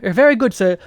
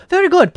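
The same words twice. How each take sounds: First: "very good" in a mild posh British voice, a touch higher; mock British butler. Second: "Very good" much higher and louder in an exaggerated posh British voice; hammed-up posh British. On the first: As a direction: say "very good, sir" as a polite British servant. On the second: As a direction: squeal "Very good" like a caricatured British toff. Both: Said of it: "Do I sound British?".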